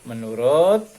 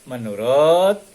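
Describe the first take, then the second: The two takes are said the same way.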